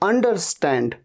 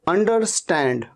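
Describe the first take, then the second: The two takes are said the same way.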